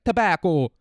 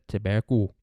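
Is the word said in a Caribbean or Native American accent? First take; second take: Caribbean; Native American. First: It is said with a Caribbean accent. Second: It is said with a Native American accent. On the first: The speaker calls it right. "say it with like a modern Caribbean accent" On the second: The speaker calls it wrong. "say it with like a native tobacco. Tobacco doesn't sound as good"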